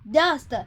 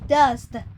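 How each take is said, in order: First: The word is said as one short syllable. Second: The word is said with extra sounds added. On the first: The speaker calls it right. "It's just one sound" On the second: The speaker calls it wrong. "You don't say dust"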